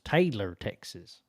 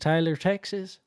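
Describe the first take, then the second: First: The name is said in a plain accent. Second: The name is said in a country accent.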